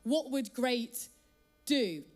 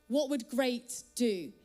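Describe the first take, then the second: First: The stress falls on the word do. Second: The stress falls on the word great.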